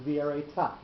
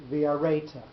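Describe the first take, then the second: First: V'areta with the accent moved onto the final syllable, ta; stress shifted to the last syllable. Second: V'areta with the accent on the second-last syllable, re; stress on second-last syllable. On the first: Teacher showing the vav ha'ipuch reading, stress on the last syllable. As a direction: say v'areta landing the stress on the end, ta. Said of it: "you have to actually change the accent". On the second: Teacher showing the plain vav reading, stress on the second-last syllable. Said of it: "the accent would be on the second last syllable". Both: Shown as a demonstration.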